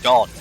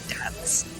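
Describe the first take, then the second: First: Dance is said in a British accent. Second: Dance is said in an American accent. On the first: The speaker calls it right. "the word is pronounced dance" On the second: The speaker calls it wrong. "not dance"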